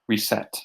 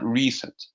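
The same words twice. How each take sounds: First: The stress is on the second syllable. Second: The stress is on the first syllable. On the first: The speaker calls it right. "The stress here goes on the set" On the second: The speaker calls it wrong. "Not reset"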